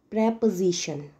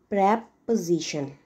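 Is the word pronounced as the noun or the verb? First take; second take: noun; noun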